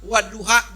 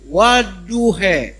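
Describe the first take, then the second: First: The final vowel is an open 'ah'. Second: The final vowel is bent toward 'eh'. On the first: The speaker calls it right. "Dia baca kiroah waduha" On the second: The speaker calls it wrong. "jadi waduhe"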